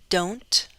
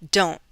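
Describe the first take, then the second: First: The T is released with a light puff. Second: The T is cut off with a glottal stop. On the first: "I'll say it with a true T. ... That aspiration is controlled" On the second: "With a glottal stop"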